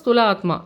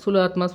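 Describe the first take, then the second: First: The first word starts with an 'st' cluster. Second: The first word starts with a plain 's'. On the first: The speaker calls it right. "இது கரெக்டான pronunciation" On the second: The speaker calls it wrong. "அப்படி இல்ல"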